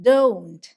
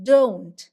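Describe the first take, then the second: The two takes are said the same way.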